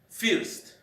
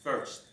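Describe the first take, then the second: First: The vowel is a Spanish-style 'i' sound. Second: The vowel is an English-style 'er' sound. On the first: The speaker calls it wrong. "in Spanish, uh, the letter I we pronounce like first" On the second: The speaker calls it right. "the correct pronunciation is first"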